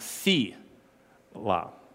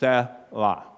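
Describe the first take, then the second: First: The first vowel is long. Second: The first vowel is short. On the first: The speaker calls it wrong. "not Selah" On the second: The speaker calls it right. "So it's Selah"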